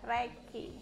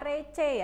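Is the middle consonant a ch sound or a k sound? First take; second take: k sound; ch sound. First: It is said like 'reh-kee', with a k sound. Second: It is said like 'reh-cheh', with a ch sound. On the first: The speaker calls it right. "tapi bacanya adalah reki" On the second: The speaker calls it wrong. "Jangan dibaca rece ya"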